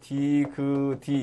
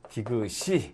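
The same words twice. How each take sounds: First: The final consonant links over as a 'd' sound. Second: The final consonant links over as an 's' sound. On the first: The speaker calls it wrong. "디귿이 이렇게 안 나고" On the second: The speaker calls it right. "시옷을 인정을 해준다"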